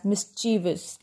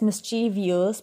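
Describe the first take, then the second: First: "mischievous" as mis-CHEE-vus; correct three syllables. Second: "mischievous" as mis-CHEE-vee-us; common mispronunciation. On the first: Teacher correcting learners, mischievous as mis-CHEE-vus. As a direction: say "mischievous" with no "ee" before "us". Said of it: "it is pronounced as". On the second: Teacher showing the usual mistake, mischievous as mis-CHEE-vee-us. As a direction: say "mischievous" in four syllables with "vee-us". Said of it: "Generally, we pronounce it as". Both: Shown as a demonstration.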